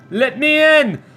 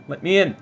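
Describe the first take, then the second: First: High, loud plea to be let in; playful raised-voice demand; mock demanding shout. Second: Said in the usual way. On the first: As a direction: call it out like someone locked out. Pleads at first class door.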